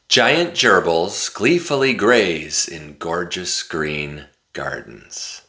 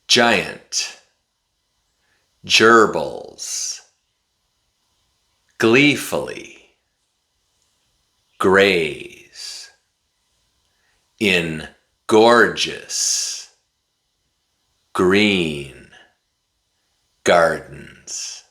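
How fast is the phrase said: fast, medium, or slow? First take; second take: fast; slow. First: It is said very fast, words run together. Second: It is said slowly, word by word. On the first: "this time I'm going to say it really fast" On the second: "Repeat after me"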